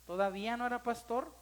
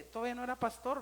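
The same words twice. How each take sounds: First: "no" lifted with a rising tune; stress on no. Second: Said in the usual way. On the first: Real, not acted. Pastor stressing to the church that "no" held then. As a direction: lean on "no" to insist.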